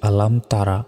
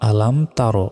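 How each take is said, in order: First: The final word ends with an added vowel. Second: The final word ends without an added vowel. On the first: The speaker calls it wrong. "আমরা অনেকে ভুল উচ্চারণ করি, বলি যে আলাম তারা, এটা ভুল" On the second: The speaker calls it right. "বলতে হবে আলাম তার"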